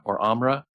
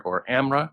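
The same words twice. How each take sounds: First: Amra said with an open "ah", AHM-ra; unsure second guess at Amra; second try at the name. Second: Amra said with a flat "a" as in "am", AM-ra; unsure first guess at Amra; first try at the name. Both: Shown as a demonstration. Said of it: "I don't know how to say their name yet".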